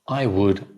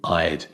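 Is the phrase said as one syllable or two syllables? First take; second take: two syllables; one syllable. First: It is said in full as two syllables. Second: It is contracted into a single syllable.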